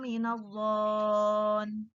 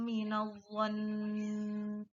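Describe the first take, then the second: First: The vowel is stretched long; the final n is short. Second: The vowel is short; the final n is held. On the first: The speaker calls it wrong. "Anak-anak banyak yang membacanya seperti itu. Nah, bacaan yang seperti itu salah" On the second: The speaker calls it right. "Yang benar adalah"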